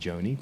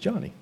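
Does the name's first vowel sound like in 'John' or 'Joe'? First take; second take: Joe; John. First: The first vowel sounds like in 'Joe'. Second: The first vowel sounds like in 'John'. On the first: The speaker calls it wrong. "I want to say Joni" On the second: The speaker calls it right. "but I've heard it's Johnny"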